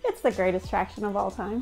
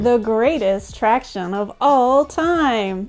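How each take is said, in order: First: It is said in a calmer, toned-down way. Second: It is said with forced, high enthusiasm.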